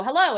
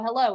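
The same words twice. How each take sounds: First: Bright, louder, higher greeting; cheery hello. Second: Said in the usual way. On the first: Retold or imitated. Meeting someone new, a lively upbeat hello. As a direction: greet them with real eagerness. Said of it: "you meet someone and you go". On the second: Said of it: "and they go".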